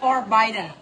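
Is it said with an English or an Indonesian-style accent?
English. It is said with an English pronunciation. This is the original English word. "serapan dari bahasa Inggris, yaitu forbidden"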